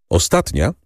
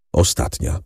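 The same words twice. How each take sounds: First: Said in the usual way. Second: Breathy whispered Ostatnia, no voice at all; hushed grim Ostatnia. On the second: A narrator's reading. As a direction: drop the word Ostatnia to a bare whisper.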